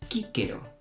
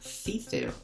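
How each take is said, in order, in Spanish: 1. Las dos c suenan como una k dura. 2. Las dos c suenan como un sonido suave. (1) "la C se pronuncia siempre como K" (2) "no se leería cícero, como en español"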